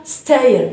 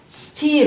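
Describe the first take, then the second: First: "stair" with an AY glide, STAY-er; "stair" with AY in place of EE; mispronounced steer. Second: "steer" with a long EE glide, STEE-er; "steer" drawn out from EE to schwa; correct steer. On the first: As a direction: say "stair" as the wrong reading, STAY-er. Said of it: "وليس stair". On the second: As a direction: say "steer" rhyming with "beer". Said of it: "نقول steer وليس stair". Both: Shown as a demonstration.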